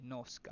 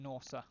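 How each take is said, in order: First: The C is said as a K sound. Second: The C is said as an S sound. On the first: "Hard C. Okay, Norska" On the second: "is it Norsa?"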